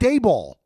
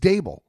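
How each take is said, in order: First: The name ends like the word ball. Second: The name ends like the word table. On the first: The speaker calls it wrong. "Not Dayball. Drives me nuts" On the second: The speaker calls it right. "Dable rhymes with table"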